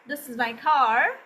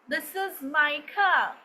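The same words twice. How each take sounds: First: Said in an American accent, final r sounded. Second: Said in a British accent, final r dropped. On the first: "American जो हैं वो इसे कहेंगे" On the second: "pronounced as car in British accent"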